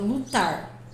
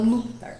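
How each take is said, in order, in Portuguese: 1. A tônica está na segunda sílaba. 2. A tônica está na primeira sílaba. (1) "porque o tar é forte" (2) "eu não falo lutar"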